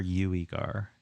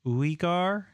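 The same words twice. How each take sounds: First: Uigar opened with a y-glide, like "you"; YOU-ee-gar pronunciation. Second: Uigar opened with a pure "oo", no y-sound; OO-ee-gar pronunciation. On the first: Streamer asking about a viewer's name, Uigar starting on "you". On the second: Streamer checking a viewer's name, Uigar starting on "ooh". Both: Shown as a demonstration. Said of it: "Pronounced like ooh".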